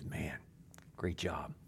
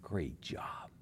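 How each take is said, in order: First: Boss praise. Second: God's praise. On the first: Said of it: "He goes". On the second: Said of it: "he looks at us and says". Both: Retold or imitated.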